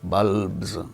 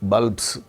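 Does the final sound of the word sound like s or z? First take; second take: z; s. First: The ending is a buzzing z sound. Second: The ending is a hissing s sound. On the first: The speaker calls it right. "pronounced as z if the root ends in a voiced sound" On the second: The speaker calls it wrong. "not bulbs"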